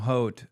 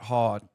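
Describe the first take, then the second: First: The word rhymes with boat. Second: The word rhymes with pot. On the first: The speaker calls it right. "Haute, not hot" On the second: The speaker calls it wrong. "not hot"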